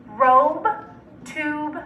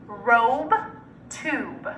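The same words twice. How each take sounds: The two takes are said the same way.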